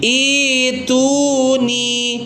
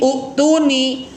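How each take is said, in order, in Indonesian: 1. Kata ini dimulai dengan vokal 'ee' panjang. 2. Kata ini dimulai dengan vokal 'oo' pendek. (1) "bukan utuni tapi ituni" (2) "Rata-rata bacanya ini utuni, mengikuti kaidah hamzah wasol"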